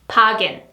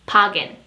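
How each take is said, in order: The two takes are said the same way.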